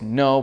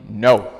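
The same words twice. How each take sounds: First: It is said in a mild, normal tone. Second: It is said in a firmer, stronger tone.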